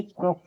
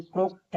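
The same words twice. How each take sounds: First: "क्रोक" ending in k, no t; silent-t reading of "क्रोक". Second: "क्रोक्ट" with a final t; T sounded. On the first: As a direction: say "क्रोक" with the t dropped. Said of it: "यानी क्रोक पढ़ेंगे". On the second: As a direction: say "क्रोक्ट" ending in a kt cluster. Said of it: "क्रोक्ट नहीं". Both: Shown as a demonstration.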